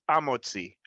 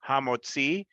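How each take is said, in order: First: The word begins with a vowel, no h. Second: The word begins with an h sound.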